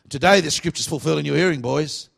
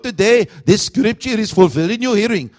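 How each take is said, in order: First: It is said in an Australian accent. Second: It is said in an Indian accent.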